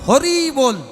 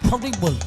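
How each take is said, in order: First: The phrase is pronounced clearly with crisp consonants. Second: The phrase is mumbled with slurred, toothless consonants. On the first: The speaker still has teeth. The speaker calls it right. "যতদিন আমার দাঁতগুলো আছে আমি বলবো হরি বল" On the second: The speaker has lost his teeth in old age. The speaker calls it wrong. "দাঁত বাদ দিয়ে উচ্চারণ করি ... উচ্চারণটা হবে ফটিক বল"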